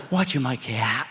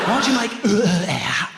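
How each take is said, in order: First: Essex dad. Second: Put-on slow, high and loud, "out" stretched over three syllables in an Essex accent; drawn-out Essex "out". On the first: Retold or imitated. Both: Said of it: "Three syllable Essex out".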